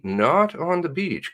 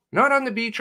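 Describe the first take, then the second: First: "Not" stressed, slowed down. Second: "on" stressed high, like correcting. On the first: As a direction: punch "Not" slowly. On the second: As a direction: hit "on". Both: Real, not acted.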